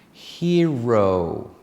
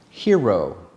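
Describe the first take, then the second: First: The word is said slowly. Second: The word is said at normal speed. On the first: "We did those slowly for practice" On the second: "but at normal speed"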